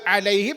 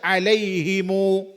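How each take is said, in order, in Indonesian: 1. Kata alaihim berakhir pada konsonan m. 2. Kata alaihim berakhir dengan tambahan vokal u. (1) "Termasuk juga alaihim" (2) "ada yang baca alaihimu"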